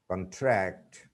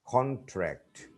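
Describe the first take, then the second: First: Weak first vowel in "contract"; stress on second syllable. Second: High "con" falling away in "contract"; "contract" with a full o up front; stress on first syllable. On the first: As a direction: CONTRACT as the verb, kun-TRACT. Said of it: "second syllable". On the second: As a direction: CONTRACT as the noun, CON-tract. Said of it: "the stress is on the first syllable". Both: Shown as a demonstration.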